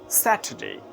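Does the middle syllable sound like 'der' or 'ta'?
ta. The middle syllable sounds like 'ta'. "In British English, it will be Saturday. Sa, ta, day. R is silent here"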